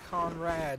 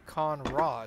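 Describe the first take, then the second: First: The second syllable sounds like 'rad'. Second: The second syllable sounds like 'rod'. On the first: The speaker calls it wrong. "what you've been calling a Conrad" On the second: The speaker calls it right. "is actually a Conrod"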